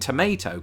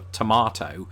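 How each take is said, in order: First: It is said with an American pronunciation. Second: It is said with a British pronunciation. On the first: "I'd actually reverted to saying tomato" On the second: "to hear me say it that way"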